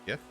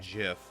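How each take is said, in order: First: The word begins with a hard g sound. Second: The word begins with a j sound. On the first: The speaker calls it right. "Pronounce it with a G, like how it should be" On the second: The speaker calls it wrong. "Not Jif. Jif is peanut butter"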